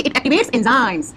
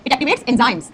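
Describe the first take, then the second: First: It activates enzymes, every word slow and spaced for writing; slow dictation. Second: Said in the usual way. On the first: Shown as a demonstration. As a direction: dictate it slowly so they can write. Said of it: "आपको लिखना है कि". (धीमे-धीमे लिखवाते हुए) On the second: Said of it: "तो आप क्या लिखोगे बेटा?".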